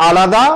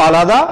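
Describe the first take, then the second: Both takes have the same delivery.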